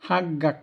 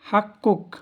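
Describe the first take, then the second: First: The middle consonant is a g sound. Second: The middle consonant is a k sound. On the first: The speaker calls it wrong. "আর আমরা বলি হাগ্গাক ... এটা ভুল" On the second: The speaker calls it right. "হাক্কুক তোমার পাওনা"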